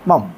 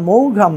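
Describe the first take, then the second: First: No 'g' sound is heard in the middle. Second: A 'g' sound is heard in the middle. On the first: The speaker calls it right. "এটার উচ্চারণ হচ্ছে মম" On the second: The speaker calls it wrong. "এটার উচ্চারণ মৌঘাম না"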